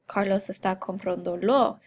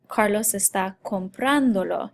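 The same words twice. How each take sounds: First: The stress in comprándolo falls on another syllable. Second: The stress in comprándolo falls on 'pran'. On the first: The speaker calls it wrong. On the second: The speaker calls it right. "you keep that emphasis on the ah"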